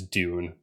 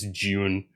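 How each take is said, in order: First: The word begins with a plain d sound. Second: The word begins with a j-like sound. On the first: This is not the speaker's own way of saying it. The speaker calls it wrong. "I don't say it as Dune" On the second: This is the speaker's own British way of saying it. The speaker calls it right. "I have to say it as June because I'm from the U K"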